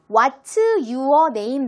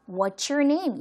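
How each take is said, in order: First: It is said with a Korean-style accent. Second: It is said with a native English accent. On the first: This is how it was written in Korean letters. "나는 이렇게 썼었는데" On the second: This is how native-speaking children say it. "그들은 발음을"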